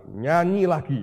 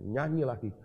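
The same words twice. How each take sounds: First: "Nyanyi lagi" said louder and higher, pressing the point; insistent command. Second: Said in the usual way. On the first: Retold or imitated. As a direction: repeat the order with force. God repeats command, insistent. ("Nyanyi lagi" diucapkan lebih keras dan tegas)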